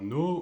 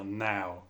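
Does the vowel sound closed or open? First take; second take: closed; open. First: The vowel starts closed, with rounded lips. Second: The vowel starts open, like an a. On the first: The speaker calls it wrong. "au lieu de dire" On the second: The speaker calls it right. "on va dire now avec le A"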